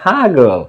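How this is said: Chittagong form with an h sound at the start.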